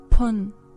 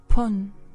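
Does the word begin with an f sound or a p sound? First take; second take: p sound; p sound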